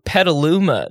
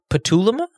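First: The voice falls at the end, like a statement. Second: The voice rises at the end, like a question. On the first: The name is being corrected. The speaker calls it right. "That's how it's pronounced" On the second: The name is unfamiliar and being checked. The speaker calls it wrong. "Question mark"

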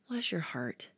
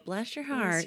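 First: The tone is warm and sincerely sympathetic. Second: The tone is judgy and looks down. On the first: The speaker genuinely sympathizes with a friend. "Or maybe you're like going through a hard time. And as a friend, I'm trying to mourn with those that mourn" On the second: The speaker is looking down on someone. "we hear bless your heart in a judgy tone"

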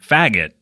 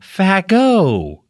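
First: The name ends with a t sound. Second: The name ends without a t sound. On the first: This is how the husband says the family name. "I don't like saying that word" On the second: This is how the wife says the family name. "and said her name"

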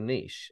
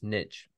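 First: It is said in a British way. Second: It is said in an American way.

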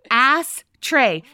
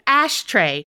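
First: The first syllable ends in an 's' sound. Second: The first syllable ends in a 'sh' sound. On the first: The speaker calls it wrong. "I said ass tray" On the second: The speaker calls it right. "Instead of ashtray"

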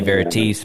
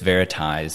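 First: The name ends in a softer sound. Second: The name ends like the word 'advertise'. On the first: The speaker calls it wrong. "I'm used to the softer ones. So I wanted to say Veritise" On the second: The speaker calls it right. "but it's Veritise"

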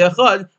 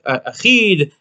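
First: The last vowel is an 'a' sound. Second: The last vowel is an 'ee' sound. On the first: It is the intended word. The speaker calls it right. "You're trying to say achad" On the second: It sounds like the wrong word. The speaker calls it wrong. "It will end up being something like a tzeri"

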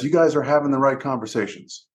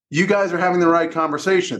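First: It is said at a normal, softer volume. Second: It is said louder with more emphasis.

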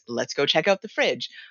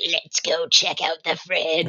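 First: It is said in a normal elf voice. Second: It is said in a strange, distorted voice.

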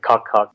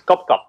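First: The name is said with an English pronunciation. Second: The name is said with a Vietnamese pronunciation.

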